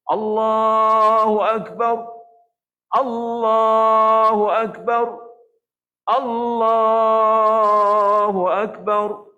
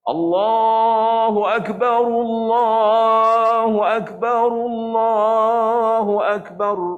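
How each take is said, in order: First: A brief silent pause separates each phrase. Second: The phrases run together without stopping between them. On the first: "Nak buat saktah boleh" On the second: "kaedah menyambungkan"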